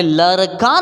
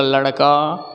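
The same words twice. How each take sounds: First: लड़का as "larka", with a simple r; plain र for ड़. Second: लड़का as "laṛka", lower, with a retroflex flap; low-pitched लड़का, tongue flicked on ड़; flapped ड़. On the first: Teacher denies saying the wrong form, लड़का as "larka". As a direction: drop the flap from लड़का. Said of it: "मैंने लड़का नहीं बोला". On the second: Teacher confirms the correct word, लड़का with flapped ṛ. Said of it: "मैंने बोला लड़का". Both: Shown as a demonstration.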